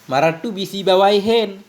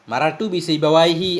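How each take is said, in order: First: The name ends with an added n sound. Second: The name ends in a plain vowel. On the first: Some other person with that name is meant. "dengan seseorang yang namanya sibawaihi tapi bukan ulama nahu itu" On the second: The famous grammar scholar is meant. "Sibawaihi imam ulama nahu"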